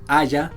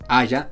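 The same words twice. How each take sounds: The two takes are said the same way.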